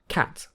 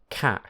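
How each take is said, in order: First: The word ends with a clear t. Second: The word ends with a glottal stop. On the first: "Most of the time we say" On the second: "if we are speaking quickly, we might say"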